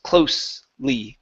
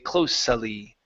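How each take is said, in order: First: No extra vowel is sounded before the ending. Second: An extra vowel is sounded before the ending. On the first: The speaker calls it right. "that E still does not sound" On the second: The speaker calls it wrong. "We don't say closely"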